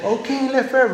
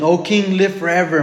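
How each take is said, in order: First: High-pitched, put-on reply; imagined Daniel replying. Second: Said in the usual way. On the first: Preacher playfully pictures Daniel answering the king, high put-on voice. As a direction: answer the king in a comically raised voice. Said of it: "maybe he hesitated a few seconds".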